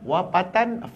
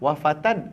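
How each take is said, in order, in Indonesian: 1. Kata itu diawali dengan bunyi p. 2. Kata itu diawali dengan bunyi f. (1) "Ada orang sebut pa" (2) "Fa ke pa?"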